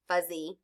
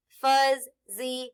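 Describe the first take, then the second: First: Said in the usual way. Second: "fuzzy" stretched, sounds joined; blended slowly. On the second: Shown as a demonstration. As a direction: draw out "fuzzy" while blending. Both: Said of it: "F, a, z, fuzz".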